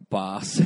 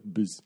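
First: BUS as "bahs", spelt B A S; bus with long vowel. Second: BUS with the U dropped, just "bz"; bus without vowel. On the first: Spelling an app name with a line on top, BUS as "bahs". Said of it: "like, a line on top". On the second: Suggesting a vowel-less app name, BUS said without its U. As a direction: say BUS as bare consonants, no U. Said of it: "like, bus without a U". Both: Shown as a demonstration.

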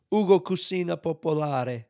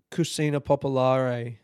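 First: Higher, lilting Italian pronunciation; showy Italian flourish on the restaurant name; Italian accent. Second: Said in the usual way. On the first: Shown as a demonstration. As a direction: say Ugo Cucina Popolare like an Italian, tapped R.

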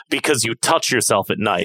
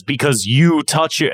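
First: Flat deadpan. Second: Betonung auf "you", leicht höher und lauter gesetzt; stress on you. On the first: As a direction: say it dead straight, no push. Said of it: "He says it flat". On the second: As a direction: hit "you" harder than the rest. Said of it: "the emphasis is not on you". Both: Shown as a demonstration.

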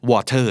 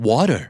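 First: "water" with a clear hard T in the middle. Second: "water" as "wah-der", T turned to quick D; American flap T. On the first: Teacher naming the example word before Americanising it, hard T. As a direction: say "water" as "waw-ter", T fully sounded. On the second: Teacher showing how Americans say water, flap T. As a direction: tap the T in "water" like a D. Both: Shown as a demonstration. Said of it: "อเมริกันจะออกเสียงว่า".

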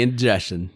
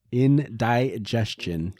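First: Said in the usual way. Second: "Indigestion" slowly split up as in-DIE-jest-chun; drawn-out mispronunciation. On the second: Shown as a demonstration. Friend joking about someone's upset stomach, "Indigestion" drawn out as in-die-jest-chun. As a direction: stretch "Indigestion" syllable by syllable, with "di" as "die". Repeats word drawn out, altered.

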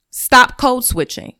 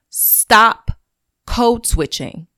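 First: Slow and loud, each word set down; slow emphatic command. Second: Stop, then a pause, then code switching, slow; loud with pauses. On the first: Podcaster urging her listeners, slow and forceful. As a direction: Stop code switching, hammered out slowly. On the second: Podcaster repeating her plea, loud and pausing. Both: Real, not acted.

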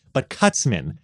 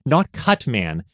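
First: Cutsman with an s, run together; Cutsman as one word. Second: Said in the usual way. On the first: Shown as a demonstration. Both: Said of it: "they were calling him Cutsman".

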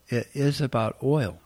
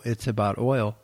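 First: "is" said in full and emphasized; stress on IS. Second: Said in the usual way. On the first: Real, not acted. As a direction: lean on "is", pitched up, to confirm it. Affirms the claim just quoted.

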